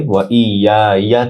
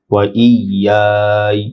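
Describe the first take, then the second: First: ওয়া ই ইয়া ইয়া with the last "ya" fully voiced; unpaused form. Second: ওয়া ই ইয়াই with long glide ending in "y"; stopped form. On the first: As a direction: say the final ইয়া as its own syllable. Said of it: "ওয়াকফ করলে ওয়া ই ইয়া ইয়া থেকে". (শেষের ইয়া আলাদা করে উচ্চারণ) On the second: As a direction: hold ইয়াই and close it without a vowel. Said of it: "ওয়াকফ করলে". (ইয়াই টেনে জজমে থামা) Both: Shown as a demonstration.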